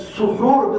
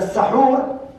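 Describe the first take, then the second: First: The first vowel is a rounded 'u' sound. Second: The first vowel is an open 'a' sound. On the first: It names the action of eating. "the dhamm is seen" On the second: It names the food that is eaten. "when you place a fatha on it"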